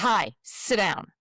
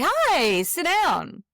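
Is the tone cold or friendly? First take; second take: cold; friendly. First: It is said in a cold, upset tone. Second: It is said in a warm, friendly tone.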